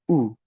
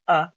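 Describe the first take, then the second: First: It is said as a pure oo vowel. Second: It is said as a short uh vowel. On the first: The speaker calls it right. "It says U" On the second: The speaker calls it wrong. "it never says uh"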